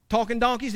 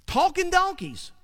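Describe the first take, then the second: First: Said in the usual way. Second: Talking donkeys, pitched high in mock disbelief; high amused incredulity on Talking donkeys; incredulous. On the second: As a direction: say Talking donkeys as if it's absurd. Repeats phrase in disbelief.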